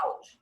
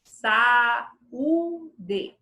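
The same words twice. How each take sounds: First: Saúde as two syllables, SAU-de; run-together vowels. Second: Saúde very slowly as saa, uu, dee; long pauses between the three syllables of saúde; separated vowels. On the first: Teacher showing the wrong way, vowels run together. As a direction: merge A and U of saúde into one glide. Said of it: "Eu não falo saúde". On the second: Teacher showing the right way, syllable by syllable. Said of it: "Eu falo saúde". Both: Shown as a demonstration.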